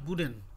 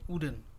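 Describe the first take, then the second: First: The word starts with a consonant W sound. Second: The word starts with a plain vowel sound. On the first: The speaker calls it right. "এটা প্রোনাউন্সিয়েশনটা হয় বুডেন" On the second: The speaker calls it wrong. "বুডেন না বলে আমরা বলি উডেন"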